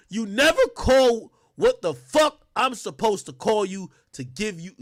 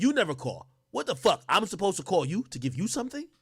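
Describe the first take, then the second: First: Loud, higher, indignant reading; mock angry father; angry text read. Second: Said in the usual way. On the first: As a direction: read it like the furious dad.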